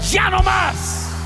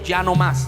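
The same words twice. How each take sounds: First: It is said with strong force. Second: It is said with less force.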